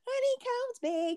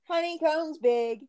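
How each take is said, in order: First: It is said in a put-on child's voice. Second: It is said in the speaker's normal adult voice.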